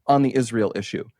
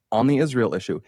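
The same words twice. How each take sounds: The two takes are said the same way.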